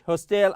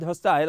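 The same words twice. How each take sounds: First: It is said with an American accent. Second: It is said with a British accent. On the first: "American English" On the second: "British English"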